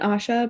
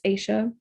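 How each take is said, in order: First: The first vowel sounds like 'ah'. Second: The first vowel sounds like 'eye'. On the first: The speaker calls it wrong. "I keep I keep saying Asha" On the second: The speaker calls it right. "but it's Aisha"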